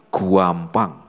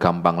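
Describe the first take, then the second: First: The word is said with a stretched, strongly emphasized vowel. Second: The word is said plainly, without extra emphasis. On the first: It means extremely easy, more than easy. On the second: It means simply easy.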